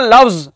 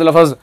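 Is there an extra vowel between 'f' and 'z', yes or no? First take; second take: no; yes. First: The 'f' and 'z' are joined without a vowel. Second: A vowel is inserted between 'f' and 'z'. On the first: The speaker calls it right. "लफ्ज का तलफ्फुज सही तो होता है ना" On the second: The speaker calls it wrong. "हजरत उसको बार बार पढ़ते हैं"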